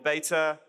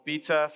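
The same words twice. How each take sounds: First: It is said in a non-British accent. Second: It is said in a British accent.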